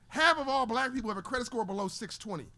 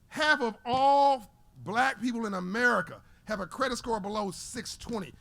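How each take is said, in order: First: It is said at a fast pace. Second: It is said at a slow pace.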